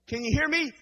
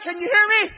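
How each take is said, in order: First: It is said at a normal, quieter volume. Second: It is hollered loudly, like a shout.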